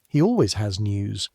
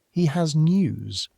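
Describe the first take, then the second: First: Always leaned on in a wry aside, rest plain; He always has news, punch always; stress on always. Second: He said higher and drawn out, then has news; He has news, leaning on He; slow stress on He. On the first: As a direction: tip a fond eye-roll onto always. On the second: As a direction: lift and stretch He, news plain. Narrator stresses who has news. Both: A narrator's reading.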